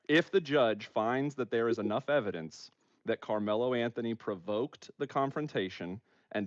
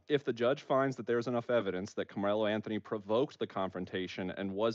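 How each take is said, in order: First: It is read at a slower pace. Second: It is read at a faster pace.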